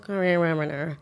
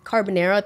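First: Slurred mumble of CARBONARA; slurred, unintelligible imitation. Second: Said in the usual way. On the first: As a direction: imitate a dozy guest smearing CARBONARA together. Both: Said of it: "I don't really understand what they're saying".

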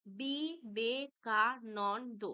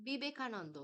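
First: বিবেকানন্দ very slowly as বি, বে, কা, নন, দ; split into syllables. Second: Said in the usual way. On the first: Shown as a demonstration. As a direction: break বিবেকানন্দ into syllables with a gap after each. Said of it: "আমি দল বিশ্লেষণ". (বিবেকানন্দ ধীরে দলে ভেঙে বলা) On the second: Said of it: "তারপরেরটা দেখে নাও".

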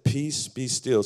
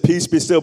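First: Hushed, slow restatement; calm slow repeat. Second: High, loud proclamation of Jesus' words; preacher's big shout of peace be still; proclaimed loudly. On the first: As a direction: settle the storm gently. Quieter repeat after loud proclamation. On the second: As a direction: ring it out over the crowd. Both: Acted.

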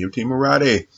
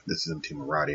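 First: "M T Marathi" said higher and louder with a falling end; "M T Marathi" punched out as a brand name; emphatic name. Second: Said in the usual way. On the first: Shown as a demonstration. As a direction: announce "M T Marathi" proudly like a title.

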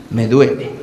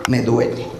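First: Whiny ache. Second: Sudden low groaned me duele; whiny ache. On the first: Patient repeats it hurts. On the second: Patient whining to doctor, low and pained. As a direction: drop the voice low and soft on me duele. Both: Acted.

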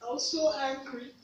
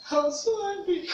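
First: Said in the usual way. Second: Higher, heated repeat of so angry; SO lifted high, voice rising in real anger; emphatic repeat. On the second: Real, not acted. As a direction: let the anger break through on the second go. Repeated emotional admission.

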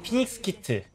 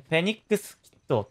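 First: ピニックスキット with a P and a plain i, the Korean way; Korean pronunciation. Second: フェニックスキット with a soft f sound, close to the English; English-style pronunciation. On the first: Explaining Korean pronunciation to Japanese viewers, Korean ピニックスキット. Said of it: "韓国語の発音的には". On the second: Contrasting with the Korean reading, English-like フェニックスキット. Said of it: "フェニックスキットって喋っちゃうと". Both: Shown as a demonstration.

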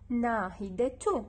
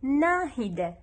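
First: ناهدة sounded as "nahidatu", t pronounced; damma ending. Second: ناهدة said alone as "nahida", t silent; loud, clear ناهدة ending on an open "a"; pausal "a" ending. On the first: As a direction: end ناهدة in a clear "-tu". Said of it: "إذا أخلي فوقها ضمة". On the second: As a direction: end ناهدة on "da" with no t sound. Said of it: "شوفوا وحدها تلفظ". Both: Shown as a demonstration.

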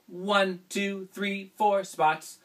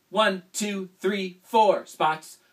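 Both takes have the same delivery.

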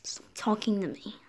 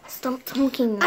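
First: Hushed whisper, no voice. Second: "Stop talking to me." said out loud, a bit louder; louder retort. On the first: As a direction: hiss "Stop talking to me." under the breath. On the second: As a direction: snap "Stop talking to me." back in full voice. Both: Acted. Whisper then repeat out loud.

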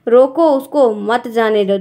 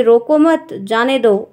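First: Slow रोको उसको, pause, मत जाने दो; comma after the stop order. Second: रोको मत as one phrase, break, जाने दो; comma after मत. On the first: Teacher repeats the upper sentence, pausing before मत जाने दो. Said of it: "ऊपर वाले में". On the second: Teacher repeats the let-him-go sentence, pausing after मत. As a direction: pause after मत, before जाने दो. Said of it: "वही चीज़ यहाँ पे है". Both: Shown as a demonstration.

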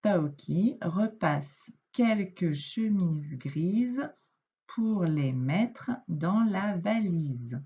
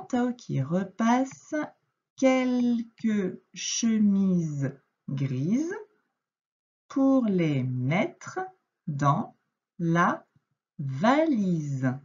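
First: The whole sentence read smoothly but slowly; slow fluent reread. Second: Very slow read-aloud, word by word with pauses; slow syllable reading. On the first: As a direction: reread it in one slow flowing line. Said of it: "je te relis cette phrase". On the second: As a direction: read it out slowly for a beginner. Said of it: "Donc, je reprends". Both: Shown as a demonstration.

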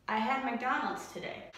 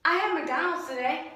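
First: Low pitched. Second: High pitched. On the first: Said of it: "what was the low for today". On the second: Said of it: "what was the high for today". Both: Shown as a demonstration.

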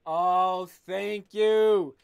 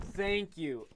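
First: Louder, beaming thank you; delighted thanks. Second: Said in the usual way. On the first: Real, not acted. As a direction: gush your thanks. Unboxing new shoes, delighted.

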